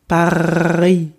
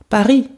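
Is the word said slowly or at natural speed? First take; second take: slowly; natural speed. First: It is said slowly, with a drawn-out gargling R. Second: It is said quickly, with a brief R. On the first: "like a gargling air" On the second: "in a natural speed"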